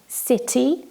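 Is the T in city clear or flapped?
clear. The T is pronounced clearly. "where we pronounce the T more clearly in British English"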